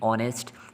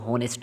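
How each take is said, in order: First: The word begins directly with a vowel sound. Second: The word begins with an audible h sound. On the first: The speaker calls it right. "एच silent है, ... ओ से आप sound लेंगे।" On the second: The speaker calls it wrong. "इसको होनेस्ट नहीं पढ़ना"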